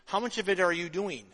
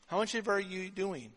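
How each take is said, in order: First: Said in the usual way. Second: The same question again, much softer; quiet repeat. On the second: Shown as a demonstration. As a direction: let it sink in with a softer repeat.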